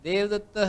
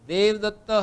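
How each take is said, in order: The two takes are said the same way.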